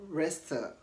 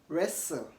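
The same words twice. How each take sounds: Both takes have the same delivery.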